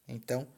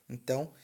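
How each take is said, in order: The two takes are said the same way.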